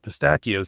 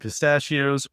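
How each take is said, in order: First: The middle consonant is a hard k sound. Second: The middle consonant is a soft sh sound.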